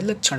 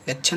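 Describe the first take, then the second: First: लक्षण ending in curled-tongue ṇ; correct retroflex N. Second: लक्षण ending in plain N; wrong dental N. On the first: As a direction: curl the tongue at the end of लक्षण. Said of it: "लक्षण होता है". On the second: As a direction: say लक्षण with N on the teeth. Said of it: "लक्षण नहीं होता है". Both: Shown as a demonstration.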